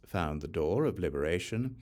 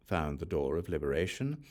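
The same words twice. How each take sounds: The two takes are said the same way.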